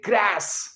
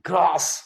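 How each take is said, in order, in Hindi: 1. स्वर एक सपाट 'a' है, जैसे cat में। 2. स्वर एक लंबी खुली 'ah' ध्वनि है। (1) "अमेरिकन कहेंगे ग्रास" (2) "जैसे हम कहते हैं ग्रास"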